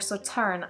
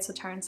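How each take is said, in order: First: The word ends without any s sound. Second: The word ends with an audible s sound. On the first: The speaker calls it right. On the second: The speaker calls it wrong.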